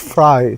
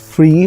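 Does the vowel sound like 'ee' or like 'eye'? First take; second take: eye; ee. First: The vowel sounds like 'eye'. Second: The vowel sounds like 'ee'. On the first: This is how the name is actually said. The speaker calls it right. "it's not free, it's Fry" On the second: This is how outsiders usually say the name. The speaker calls it wrong. "You guys would know as free"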